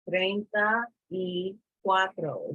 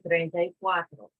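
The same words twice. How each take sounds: First: The phrase is said slowly, word by word. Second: The phrase is said quickly, words run together.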